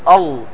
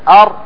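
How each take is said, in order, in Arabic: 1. يُستبدل الراء بصوت شبيه باللام المفخمة. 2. الصامت هو صوت راء واضح. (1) "يخرجها طاء أو لام مغلظة، فيقول أل بدل ما يقول أر" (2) "بل يجب أن تخرج راء"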